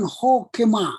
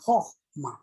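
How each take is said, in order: First: The word has three syllables with a middle vowel. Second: The word has two syllables without a middle vowel. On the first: The speaker calls it wrong. "Jadi bukan hokema" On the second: The speaker calls it right. "h itu menjadi mati, menjadi hohma"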